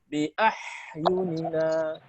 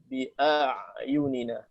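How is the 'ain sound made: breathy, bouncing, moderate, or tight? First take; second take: breathy; moderate. First: The 'ain sound is breathy with escaping air. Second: The 'ain sound is moderate, voiced and smooth. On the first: The speaker calls it wrong. "Atau dibaca hamas" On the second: The speaker calls it right. "yang benar tawassut. Tidak qalqalah, tidak uh, hamas, tapi jahar"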